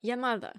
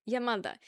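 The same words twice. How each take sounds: First: New York "Ya mother" with an a at the end; New York accent. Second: New York "Ya mother", final a; again say "mother" as "mutha", New York style; New York "mother" ending in a; New York accent. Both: Shown as a demonstration. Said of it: "mother with an A at the end".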